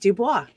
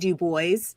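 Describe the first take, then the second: First: The name is said with a French pronunciation. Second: The name is said with an English pronunciation. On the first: The speaker calls it wrong. "not Dubois" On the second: The speaker calls it right. "it's W E B Du Bois"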